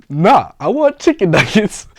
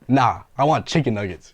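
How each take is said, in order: First: Louder, higher, slower "Nah, I want chicken nuggets"; exasperated repeat. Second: Said in the usual way. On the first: Retold or imitated. Tourist repeating order to cashier, exasperated and louder. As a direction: insist again, fed up and louder. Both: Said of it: "when I tell you I got pissed".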